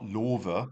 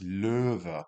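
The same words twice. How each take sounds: First: Löwe said with a plain rounded o. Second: Löwe with a rounded er vowel; ö sound. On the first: Teacher showing Löwe without umlaut. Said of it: "without the umlaut". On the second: Teacher showing Löwe with umlaut. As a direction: purse the lips for Löwe. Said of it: "With an umlaut". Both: Shown as a demonstration.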